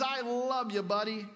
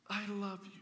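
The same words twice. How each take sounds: First: Hearty, offhand "I love you, buddy"; a pal clapping a friend's shoulder; casual buddy love. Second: Soft, nervous "I love you", much quieter; a shy girlfriend whispering her love; tender confession. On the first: Shown as a demonstration. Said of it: "a word that basically means". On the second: Acted. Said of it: "she looks tenderly at him and says".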